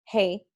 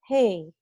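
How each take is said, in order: First: It is loud and squeezed from the throat. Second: It is loud with forward, nasal resonance.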